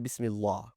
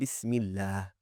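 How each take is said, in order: First: The L is heavy, with a raised tongue back. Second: The L is thin, with a flat tongue. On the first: The speaker calls it wrong. "We did not say Bismillah" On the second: The speaker calls it right. "We said Bismillah. ... keeping our tongue flat"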